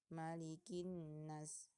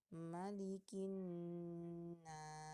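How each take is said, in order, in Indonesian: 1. Dengung sengau pada 'n' dipotong pendek. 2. Dengung sengau pada 'n' ditahan panjang. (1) "tidak membaca dengung dengan sempurna" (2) "yang benarnya"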